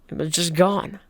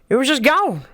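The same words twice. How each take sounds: First: It is read in the speaker's ordinary voice. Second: It is said in an imitated character voice.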